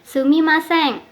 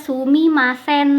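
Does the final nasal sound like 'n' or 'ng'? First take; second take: ng; n. First: The final nasal is an ng sound. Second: The final nasal is a plain n sound. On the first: The speaker calls it right. "pelafalan eng" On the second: The speaker calls it wrong. "tidak dibaca sumimasen, tidak"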